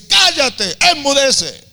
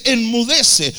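First: High, loud rebuke to the storm; Jesus silencing the tempest, loud high command; commanding shout. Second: Firm rebuke, only a little raised; Jesus speaking to the storm, firm but restrained; milder command. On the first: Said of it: "lo veo gritándole a la nada". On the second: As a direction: speak to the storm firmly, not yelling. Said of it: "Le habla a la tempestad". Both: Retold or imitated.

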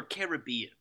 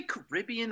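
First: Caribbean said as ka-ruh-BEE-un; Caribbean with a full first vowel, stressed BEE; stress on third syllable. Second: Caribbean said as kuh-RIB-ee-un; Caribbean with a reduced first syllable, stressed second. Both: Shown as a demonstration. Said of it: "do you say Caribbean or Caribbean".

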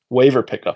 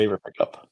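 First: Said again louder for clarity; louder repeat. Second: Said in the usual way. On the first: Real, not acted. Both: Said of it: "Say again?".

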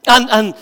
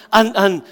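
No difference in how they are said.

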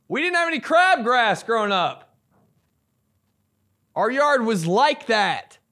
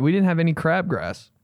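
First: High-pitched, showy boast; mock bragging. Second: Said in the usual way. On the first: Mock boast after denying bragging.

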